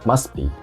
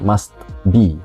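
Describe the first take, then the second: First: The t sound in must is dropped. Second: The t sound in must is pronounced. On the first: The speaker calls it right. "T-nya hilang" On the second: The speaker calls it wrong. "bukan must be"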